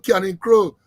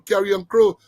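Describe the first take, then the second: First: The first word is said as 'canning'. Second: The first word is said as 'carrion'. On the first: This is how locals actually say it. "Eagle to Canning Crow" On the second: This is the standard name, not the local one. "But we don't say Carrion Crow"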